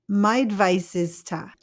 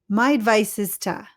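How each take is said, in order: The two takes are said the same way.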